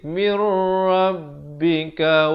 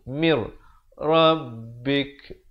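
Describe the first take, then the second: First: It ends on a vowel that flows onward. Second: It ends on a breathy k sound. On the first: The reader continues into the next words. "Kalau nak sambung" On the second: The reader stops here. "Kalau waqaf di sini kafnya ada bunyi angin"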